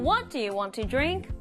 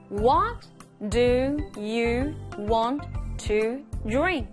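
First: It is said at normal speed. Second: It is said slowly.

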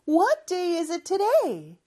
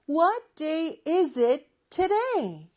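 First: It is said fast. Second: It is said slowly.

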